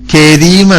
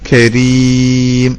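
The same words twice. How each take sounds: First: It starts with a plain front k sound. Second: It starts with a deep consonant from the throat. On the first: The speaker calls it wrong. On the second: The speaker calls it right.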